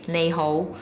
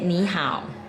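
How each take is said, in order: First: The greeting is pronounced the Cantonese way. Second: The greeting is pronounced the Mandarin way. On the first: "You say in Cantonese is Nei Hou" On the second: "but in Mandarin you say Ni Hao"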